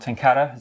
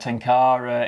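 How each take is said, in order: First: It has short, choppy A vowels, Japanese style. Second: It has smoother, longer vowels, English style. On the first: It is how it is said in Japan. "I do it more Tenkara, sort of the, that kind of short, choppy A" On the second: It is how it is said in English. "natural when we're speaking English to say like Tenkara"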